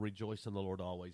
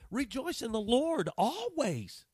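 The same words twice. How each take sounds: First: It is said softly, with little energy. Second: It is said loudly, with strong energy. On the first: It is a mild, ordinary encouragement. The speaker calls it wrong. "a simple little" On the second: It is an urgent, insistent declaration. The speaker calls it right. "it was almost like a declaration"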